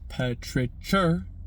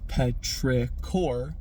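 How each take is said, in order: First: The word contains a 'ch' sound. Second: The word contains no 'ch' sound. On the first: "has that uh, double ch, ch sound to it" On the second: "has a um, just entirely different vowel usage"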